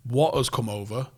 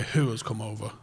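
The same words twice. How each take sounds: First: "What" picked out at the start; stress on WHAT. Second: "who" picked out against the rest; stress on WHO. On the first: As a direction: lean on "What" as the key question word. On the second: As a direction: lean on "who" as the new question word. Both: Real, not acted. Setting the scene, listing contrasting questions.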